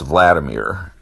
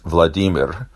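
First: The name is said in the American English way. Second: The name is said in the Russian way. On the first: "in American English, that's Vladimir" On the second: "In Russian, it's Vladimir"

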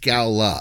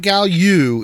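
First: The second syllable sounds like 'luh'. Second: The second syllable sounds like 'loo'. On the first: The speaker calls it right. "it's Gala" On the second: The speaker calls it wrong. "It's not Gallu"

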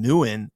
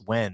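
First: The name does not sound like 'when'. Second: The name sounds like the word 'when'. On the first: The speaker calls it wrong. "I used to call him Nguyen" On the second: The speaker calls it right. "it's when"

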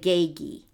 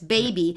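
First: The consonants are made at the back of the mouth. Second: The consonants are made with the lips. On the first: "You hear how I use the G sound there?" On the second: "see the B is a front sound, right? Use your lips"

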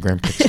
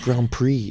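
First: It is pronounced the way it is spelled. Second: It is pronounced differently from its spelling. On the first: The speaker calls it wrong. "that's the way it's spelled. That's the way I'm saying it" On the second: The speaker calls it right. "it's Grand Prix"

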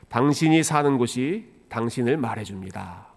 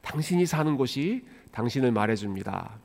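First: The voice is blunt and flat. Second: The voice is sweet and pretty. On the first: "저처럼 이렇게 무뚝뚝한 목소리로 하지 않았습니다" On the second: "아주 예쁜 그 성우의 목소리로"

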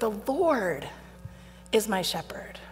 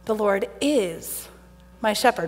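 First: The stress is on "Lord". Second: The stress is on "is".

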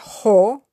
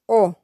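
First: The word starts with an audible h sound. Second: The word starts directly with the vowel. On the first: The speaker calls it wrong. "it isn't ho" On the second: The speaker calls it right. "but o"

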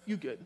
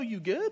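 First: The phrase sounds dismissive and shutting down. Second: The question sounds caring and concerned. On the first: The speaker wants the other person to stop talking. "In other words, stop talking" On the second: The speaker is offering help. "Like, you need something? Can I help you out?"

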